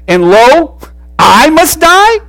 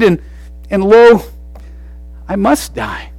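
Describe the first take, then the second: First: The line is delivered with incredulous, protesting disbelief. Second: The line is delivered plainly, without incredulity. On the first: The speaker protests that the sentence is absurd. "In a sense saying, "Are you kidding me? I'm the only one that was refreshed."" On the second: The speaker accepts the sentence. "He could have said it this way"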